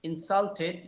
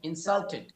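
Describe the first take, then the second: No difference in how they are said.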